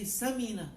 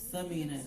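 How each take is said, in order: First: The first consonant is an s sound. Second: The first consonant is a th sound. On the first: The name means fat. The speaker calls it wrong. "if you're lazy, then you say Samina. It means it means fat" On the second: The name means valuable. The speaker calls it right. "So it's Thamina actually"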